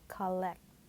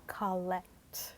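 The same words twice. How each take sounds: First: The first vowel is an open 'ah' sound. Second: The first vowel is an open 'ah' sound.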